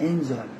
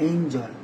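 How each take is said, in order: The two takes are said the same way.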